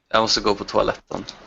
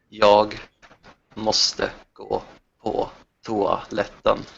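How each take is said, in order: First: It is said at normal, quicker speed. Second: It is said more slowly.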